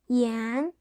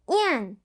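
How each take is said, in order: First: The pitch rises from mid to high. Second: The pitch falls sharply from high.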